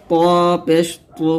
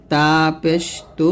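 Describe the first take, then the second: First: প and পু said with a heavy Arabic t; heavy emphatic t on পু; thick To. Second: Light t in তু; light Arabic t on তু; thin ta. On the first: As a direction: thicken and round the t for পু. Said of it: "বলতে হবে মোটা করে". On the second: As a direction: keep তা and তু thin. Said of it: "তখন পাতলা করে বলবেন". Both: Shown as a demonstration.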